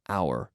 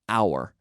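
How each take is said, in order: First: The word is said slowly in its full form. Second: The word is said slowly in its full form.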